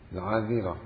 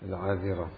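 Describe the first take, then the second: First: The dh sound is followed by no vowel. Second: The dh sound is followed by an i vowel. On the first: "بإسكان الدال" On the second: "بكسر الدال"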